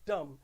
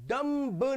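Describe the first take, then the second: First: The final b sound is silent. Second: The final b sound is pronounced. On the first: The speaker calls it right. "It is डम" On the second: The speaker calls it wrong. "तो डम्ब नहीं होगा"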